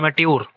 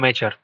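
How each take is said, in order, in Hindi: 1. शब्द वैसे ही बोला जाता है जैसे लिखा है। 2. शब्द 'cher' की आवाज़ के साथ बोला जाता है। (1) "ये लिखा हुआ है एमेट्योर" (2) "लेकिन पढ़ते हैं क्या हम लोग?"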